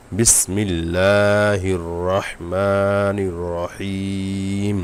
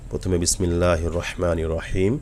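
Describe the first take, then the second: First: বিসমিল্লাহির রহমানির রহিম sung out very slowly, every vowel stretched; slow Quran recitation. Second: Said in the usual way. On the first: Shown as a demonstration. Teacher recites the full verse to students, slowly chanted. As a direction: chant the whole verse, drawing it out. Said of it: "শব্দ শব্দ ভেঙে ভেঙে পড়ে".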